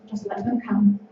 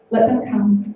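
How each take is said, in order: First: Barely above a breath, inviting; a gentle hush on come; soft invitation. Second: Said in the usual way. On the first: Shown as a demonstration. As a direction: let them come, softly.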